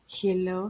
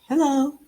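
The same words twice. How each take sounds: First: The greeting is said in a flat, neutral voice. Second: The greeting is said in a lively, varied voice. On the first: The speaker calls it wrong. "You don't say" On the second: The speaker calls it right. "You say, like"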